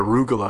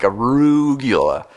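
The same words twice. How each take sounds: First: The word is said plainly and smoothly. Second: The word is heavily chewed over and exaggerated. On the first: The speaker calls it right. "I pronounced it right for the first time" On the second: The speaker calls it wrong. "I used to really chew on it, like arugula"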